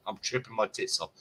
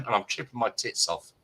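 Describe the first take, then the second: First: Repeated softer, dropped to an aside; quiet aside. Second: Said in the usual way. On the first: Real, not acted. Telling friends a drug story, quietly repeated aside. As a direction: say it again under your breath as a confiding aside.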